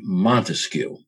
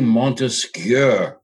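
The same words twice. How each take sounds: First: The name is said with an anglicized pronunciation. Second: The name is said with a French pronunciation. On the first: This is how people in the country commonly say it. The speaker calls it wrong. "That's how we all pronounce it" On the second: This is the original correct pronunciation. The speaker calls it right. "but it's really Montesquieu"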